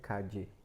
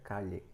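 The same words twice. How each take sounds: First: The double L is not said as 'lh'. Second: The double L is said as an 'lh' sound. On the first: "Mas também pode ser calle, dependendo do lugar do espanhol" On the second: "a L, ... tem som de L H, então essa pronúncia fica calle"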